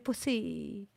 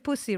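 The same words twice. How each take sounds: First: The word has a French-sounding pronunciation. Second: The word has a plain English pronunciation. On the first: "They say pussy" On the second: "They don't say pussy"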